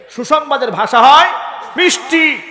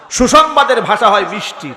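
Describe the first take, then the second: First: মিষ্টি lifted high and sung sweetly. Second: Said in the usual way. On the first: Shown as a demonstration. Preacher showing the crowd how good news sounds, sweetly.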